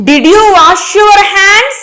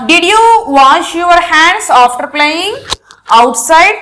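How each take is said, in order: First: Higher, slower, clearly questioning. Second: Said in the usual way. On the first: Shown as a demonstration. Teacher demonstrating a question to the class, rising and slow. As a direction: lift the voice on the question.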